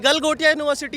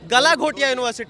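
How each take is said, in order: First: The name is said as gal-go-tiya. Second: The name is said as ga-la-gho-tiya. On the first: The speaker calls it right. "गलगोटिया university है" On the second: The speaker calls it wrong. "Not at गलाघोटिया university"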